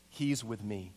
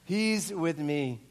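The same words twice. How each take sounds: First: Low, soft and calm; quiet vouching. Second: Drawn out at normal volume; slow, weighty repeat. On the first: Acts Mark calmly vouching for him. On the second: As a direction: let each word land slowly. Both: Retold or imitated.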